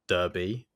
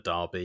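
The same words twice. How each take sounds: First: The word is said with an American pronunciation. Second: The word is said with a British pronunciation. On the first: The speaker calls it wrong. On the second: The speaker calls it right.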